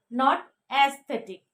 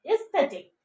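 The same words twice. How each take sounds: First: Aesthetic with a flat a, the wrong way. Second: Aesthetic opening with a short ee sound; correct aesthetic. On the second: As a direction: start aesthetic with an ee, not an a. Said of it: "You have to pronounce it". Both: Shown as a demonstration.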